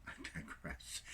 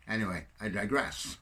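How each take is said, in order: First: I digress breathed out through a soft laugh; laughing whisper. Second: Said in the usual way. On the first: Real, not acted. Catching himself rambling, a soft amused whisper. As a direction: whisper it while chuckling at yourself.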